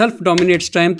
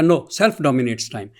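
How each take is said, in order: First: Said in the usual way. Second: Slow, deliberate, each word laid down; slow quoted rebuttal. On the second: Retold or imitated. Lecturer quoting Iqbal's reply to Bergson, slow and deliberate. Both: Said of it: "Iqbal نے کہا".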